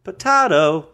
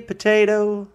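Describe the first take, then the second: First: Potato with a broad AH in the middle. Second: Potato with a long AY in the middle. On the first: Working out a lyric, potato as puh-TAH-toe. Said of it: "I say". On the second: Working out a lyric, potato as puh-TAY-toe. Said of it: "you say potato". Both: Shown as a demonstration.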